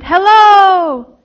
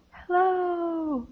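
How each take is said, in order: First: Loud, higher-pitched long hello; excited shout. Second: Soft, high, distant echo of a call. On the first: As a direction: call out eagerly for an echo. Girl shouts to raise echo. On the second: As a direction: answer like sound bouncing off a wall. Echo of her shout answers. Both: A narrator's reading.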